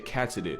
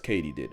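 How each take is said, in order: First: The word sounds like 'cat-si-did'. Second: The word sounds like 'Katie-did'. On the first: The speaker calls it wrong. "I completely butchered that word" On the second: The speaker calls it right. "Turns out it's katydid, as in did Katie do it?"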